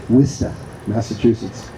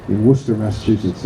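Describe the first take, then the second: First: Worcester said the Boston way, WISS-tuh, with no r; Worcester in a local Boston accent, dropping the r. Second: Said in the usual way. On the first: Shown as a demonstration. Speaker from Boston showing the locals' Worcester in a Boston accent. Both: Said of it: "as we say in Massachusetts".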